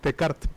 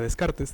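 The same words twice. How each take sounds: First: The name is said with a French pronunciation. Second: The name is said with a Spanish pronunciation.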